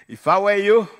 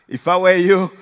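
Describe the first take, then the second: Both takes have the same delivery.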